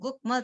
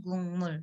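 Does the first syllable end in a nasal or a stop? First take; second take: stop; nasal. First: The first syllable ends in a k sound. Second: The first syllable ends in an ng sound. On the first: The speaker calls it wrong. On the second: The speaker calls it right.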